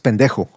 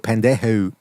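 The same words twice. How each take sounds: First: The final O vowel is light and short. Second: The final O vowel is heavily exaggerated. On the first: The speaker calls it right. "It's pendejo" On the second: The speaker calls it wrong. "the O, they really go pendejo"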